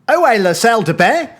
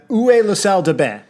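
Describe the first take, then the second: First: It is said with a put-on Australian accent. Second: It is said in a plain, unaffected accent.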